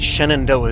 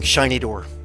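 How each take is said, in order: First: The word is said slowly with every syllable. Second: The word is said fast, sounding like shiny door. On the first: This is the speaker's own pronunciation. "Shenandoah is the way I say it" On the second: This is how the local railroad men said it. "they were saying it so fast"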